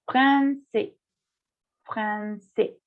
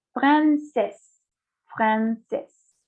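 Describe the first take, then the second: First: "français" ending on an open vowel, fran-say; "français" in two slow syllables, no final consonant; silent final S. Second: "Francés" as feminine française, ending in an audible S; "Francés" in two slow syllables, final S heard; sounded final S. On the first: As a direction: drop the last S of "français". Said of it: "no se menciona". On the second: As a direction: pronounce the last S in "Francés", fran-sess. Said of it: "Porque tengo la E final". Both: Shown as a demonstration.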